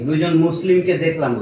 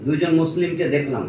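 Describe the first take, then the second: No difference in how they are said.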